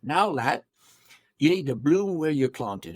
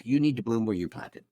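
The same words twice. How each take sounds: First: Imitated English accent, broad "ah" in planted; English-accented fatherly advice. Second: Said in the usual way. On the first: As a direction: play a pipe-smoking English counselor. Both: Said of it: "he had an English accent".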